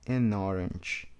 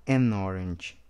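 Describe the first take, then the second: No difference in how they are said.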